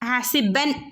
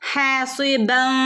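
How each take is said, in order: First: The final n is pronounced fully and clearly. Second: The final n is hidden with a nasal sound. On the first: The speaker calls it wrong. "ഹാസിബൻ എന്ന് ഓതാതെ" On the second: The speaker calls it right. "ഹാസിബൻ എന്ന് ഓതണമെന്ന്"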